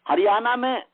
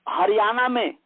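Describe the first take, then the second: Both takes have the same delivery.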